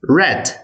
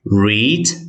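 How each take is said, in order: First: The vowel is a short 'e' sound. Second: The vowel is a long 'ee' sound. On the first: It is the past tense. "Энд дэр богино э" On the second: It is the present tense. "Энд дэр бол урт игээр уншиж байна"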